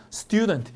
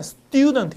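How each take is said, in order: First: Said in the usual way. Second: 스튜던트 with a hard, unaspirated T after the S; tense T after S. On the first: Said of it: "S 다음에 T는 약간 된 소리가 나요". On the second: Shown as a demonstration. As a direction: say 스튜던트 as "seu-ttyu-deon-teu". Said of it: "약간 된 소리가 나요".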